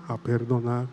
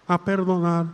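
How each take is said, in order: First: Lower, softer a perdonar; hushed echo. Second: Said in the usual way. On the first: Shown as a demonstration. Priest models the quiet response to the prayer. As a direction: murmur the answer. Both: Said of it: "Otra vez, vamos".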